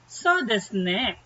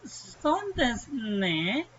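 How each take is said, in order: First: It is said in an agreeing tone. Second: It is said in a reluctant, declining tone. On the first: The listener agrees with the invitation. "if you agree" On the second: The listener declines the invitation. "if you want to like reject the the invitation"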